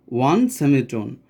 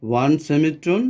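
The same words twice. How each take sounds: First: one সেমিটোন said slower, with the weight on one; slow emphatic step. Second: Said in the usual way. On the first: Shown as a demonstration. Teacher to students, stressing one সেমিটোন slowly. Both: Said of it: "ᱚᱱᱟ ᱨᱮᱭᱟᱜ formula".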